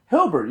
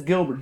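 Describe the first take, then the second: First: "Hilbert" starting with H, for Gilbert; overcorrected H. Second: "Gilbert" with a hard g; correcting to a hard-g "Gilbert"; corrected G. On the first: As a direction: say "Hilbert" as HIL-bert. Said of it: "G I L". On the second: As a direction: say "Gilbert" as GHIL-bert. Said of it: "that's Gilbert". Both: Retold or imitated.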